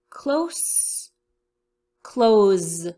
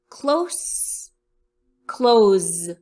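No difference in how they are said.

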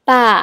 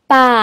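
First: It is said with the third tone. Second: It is said with the third tone.

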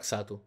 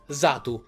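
First: The name begins with a ks sound. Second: The name begins with a z sound. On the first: "Infatti lo chiamo ancora Xatu" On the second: "non si sente la C, ma si sente solo la seconda lettera, che è la S, e sembra quasi una Z"

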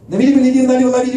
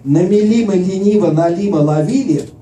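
First: The phrase is spoken very fast. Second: The phrase is spoken slowly and carefully. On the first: "now I'm going to say it really fast" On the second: "I'm going to say it slowly first"

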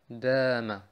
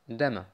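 First: The first vowel is held long. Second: The first vowel is short. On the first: This is the word with the Elif. "Aber wir sagen Dama" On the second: This is the word without the Elif. "Gäbe es den Elif nicht, hieß es Dama"

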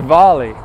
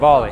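First: The first vowel is an O sound. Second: The first vowel is not an O sound. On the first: The speaker calls it right. "It's actually volley with an O" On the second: The speaker calls it wrong. "I'm not saying it right"

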